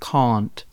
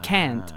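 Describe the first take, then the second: First: It is said with a British accent. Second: It is said with an American accent.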